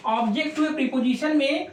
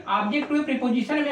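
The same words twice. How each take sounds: First: Slow, careful dictation of the phrase; slow, spelled out. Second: Said in the usual way. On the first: Shown as a demonstration. Teacher to his pupils, saying the rule slowly. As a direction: draw each word out for the students to note down. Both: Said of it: "तो प्यारे बच्चों याद रखो".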